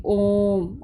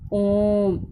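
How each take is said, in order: First: ओम with the vowel held very long and slow; drawn-out pluta vowel. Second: Said in the usual way. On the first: Shown as a demonstration. Teacher demonstrating the long pluta vowel to pupils, held out slowly. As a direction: stretch ओम out as if calling from afar. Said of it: "ये बोलने में पता लग रहा है ना कितना समय लग रहा है". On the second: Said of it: "कितना समय लग रहा है".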